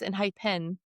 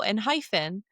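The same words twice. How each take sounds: First: It is said without the word 'hyphen'. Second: It is said as 'en' plus 'hyphen'. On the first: The speaker calls it right. "But no" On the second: The speaker calls it wrong. "it's E N and a hyphen. So I was like, oh"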